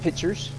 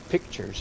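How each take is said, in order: First: It sounds like pitchers, without the k sound. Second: It is said with a clear k sound. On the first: The speaker calls it wrong. "I mispronounce it just to be ornery" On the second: The speaker calls it right. "Pictures is correct"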